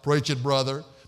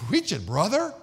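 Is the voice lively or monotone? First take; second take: monotone; lively. First: The voice stays flat with no inflection. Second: The voice rises and falls with lively inflection. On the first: The speaker calls it right. "no inflection in his voice at all. It was all monotone" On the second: The speaker calls it wrong. "No, not"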